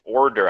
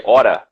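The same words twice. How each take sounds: First: "Order" with both r's fully sounded; careful standard pronunciation. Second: "hora" as New York "order", both r's dropped, "aw-tuh"; New York pronunciation. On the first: Teacher trying to say it correctly, "Order" with clear r's. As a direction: pronounce "Order" carefully, keeping each r. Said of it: "really hard for me to say correctly". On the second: Teacher showing how New Yorkers say order, "hora" with no r sounds. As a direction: say "hora" r-less, like "aw-duh". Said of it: "in New York, we say". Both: Shown as a demonstration.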